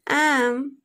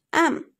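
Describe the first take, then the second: First: "am" with a long, full vowel; strong form. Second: "am" short and reduced; weak form. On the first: Teacher contrasting forms for learners, "am" full and stressed. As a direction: stretch the vowel of "am". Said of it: "Instead of am". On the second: Teacher contrasting forms for learners, "am" short and weak. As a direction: cut "am" to a brief syllable. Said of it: "we pronounced am". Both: Shown as a demonstration.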